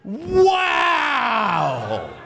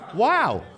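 First: It is said with strong excitement. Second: It is said with medium excitement.

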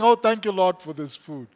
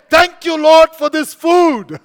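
First: It is said in a rote, cliched way. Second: It is said sincerely, with real meaning.

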